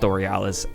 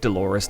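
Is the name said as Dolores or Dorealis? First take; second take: Dorealis; Dolores. First: The name is said as Do-re-a-lis. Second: The name is said as Do-lo-res. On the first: The speaker calls it wrong. "not Dorealis" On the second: The speaker calls it right. "it's Lake Dolores"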